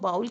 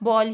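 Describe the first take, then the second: First: The vowel sounds like the 'ow' in cow. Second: The vowel sounds like the 'o' in ball. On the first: The speaker calls it wrong. "कुछ लोग जो कि बहुत ही अ, सादा हैं वो इसको बाउल कहते थे" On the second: The speaker calls it right. "अब वो भी इसको बॉल ही कहते हैं"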